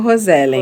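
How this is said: The name is said with Brazilian pronunciation. This is how people in Brazil came to say it. "no Brasil ficou Rosellen"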